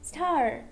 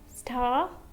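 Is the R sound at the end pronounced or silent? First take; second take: pronounced; silent. First: The final R sound is clearly pronounced. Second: The final R sound is not pronounced. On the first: This is the American English form. "and here" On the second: This is the British English form.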